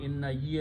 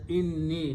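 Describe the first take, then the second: First: It is said as two separate words. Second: It is said as one fused word. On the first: The speaker calls it wrong. "not inna ye anymore" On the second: The speaker calls it right. "they are pronounced as inni"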